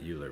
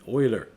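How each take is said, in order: First: The name begins with a 'yoo' sound. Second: The name begins with an 'oy' sound. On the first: The speaker calls it wrong. "Not Euler" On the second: The speaker calls it right. "but Euler"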